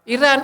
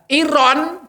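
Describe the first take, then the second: First: The vowel after the r sounds like a. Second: The vowel after the r sounds like o. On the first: This is how Indonesians read it. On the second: This is the original Arabic form.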